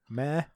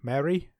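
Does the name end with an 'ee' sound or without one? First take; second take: without; ee sound. First: The name ends without an 'ee' sound. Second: The name ends with an 'ee' sound. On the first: The speaker calls it wrong. "She's not going to be called Mare, is she?" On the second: The speaker calls it right. "now am I pronouncing this lady's name? M A R E"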